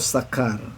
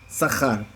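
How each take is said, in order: First: The middle consonant is a hard k sound. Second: The middle consonant is a throaty kh sound. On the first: "esa variante j por k" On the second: "En este caso es sahar... es jaf"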